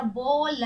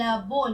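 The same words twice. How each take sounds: First: बोल with long बो, separate ल; बोल spelt aloud as बो... ल; sounded out. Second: Said in the usual way. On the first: Shown as a demonstration. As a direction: break बोल into its two letters. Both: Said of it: "ब में ओ की मात्रा".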